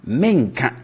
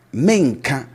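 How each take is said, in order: First: Said in the usual way. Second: Menka pitched up at the start, falling after; high-start menka. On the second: Shown as a demonstration. Teacher marking the future negative for learners. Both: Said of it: "we raise the tone at the start".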